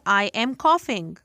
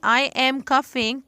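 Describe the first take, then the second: First: The vowel in coughing sounds like 'aw'. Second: The vowel in coughing sounds like 'uh'. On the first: The speaker calls it right. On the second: The speaker calls it wrong.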